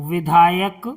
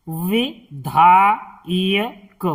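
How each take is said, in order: First: Said in the usual way. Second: "विधायक" very slow, as "वि, धा, य, क"; syllable by syllable. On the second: Shown as a demonstration. Teacher teaching word reading, slowly broken "विधायक". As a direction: break "विधायक" into held syllables. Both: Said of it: "इनका उच्चारण करना सिखाएंगे".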